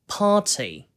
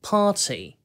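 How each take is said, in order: First: The vowel is drawn out with a crisp t. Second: The same.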